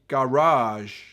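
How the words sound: It is said the American way.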